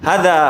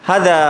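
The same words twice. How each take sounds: Both takes have the same delivery.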